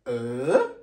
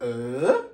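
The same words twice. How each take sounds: First: The pitch rises like a question. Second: The pitch rises like a question.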